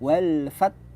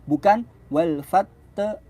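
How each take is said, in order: First: The final consonants are joined without any vowel. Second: A short vowel sounds after the final consonants. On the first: The speaker calls it right. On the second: The speaker calls it wrong.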